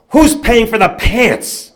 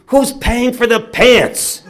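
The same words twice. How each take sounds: First: High, loud, slow retold shout; father's angry demand. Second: High, drawn-out retold bellow; father's angry demand. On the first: Father to yelling mother and boy, outraged loud demand. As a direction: stretch out each word in loud outrage. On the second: Father ignoring his son's plea to go, loud outraged demand. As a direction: bellow it slowly, ignoring the pleas.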